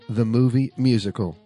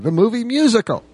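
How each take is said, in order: First: It is said plainly, without extra energy. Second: It is said excitedly, with an exclamation.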